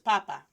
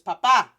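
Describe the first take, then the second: First: The stress is on the first syllable. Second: The stress is on the last syllable.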